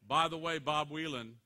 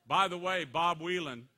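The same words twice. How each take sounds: The two takes are said the same way.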